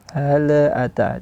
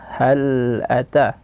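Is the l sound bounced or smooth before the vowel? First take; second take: bounced; smooth. First: The l has an echoing bounce. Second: The l is held smoothly, no bounce. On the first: The speaker calls it wrong. "itu salah satu kesalahannya, tidak boleh diqalqalahkan" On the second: The speaker calls it right. "bacaan yang benar adalah hal ata"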